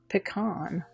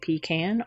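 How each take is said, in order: First: The last syllable sounds like con. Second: The last syllable sounds like can. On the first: "or a con, like C O N for pecan" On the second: "put a can"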